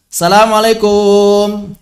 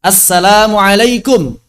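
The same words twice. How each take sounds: First: Assalamualaikum slurred and drawn out like "salamalekum"; overstretched salam. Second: Said in the usual way. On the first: Shown as a demonstration. Teacher mocks people who overstretch the salam. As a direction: drag the vowels of Assalamualaikum too long. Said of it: "Dipanjangin, kenapa dipanjangin?". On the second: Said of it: "kenapa dipanjangin".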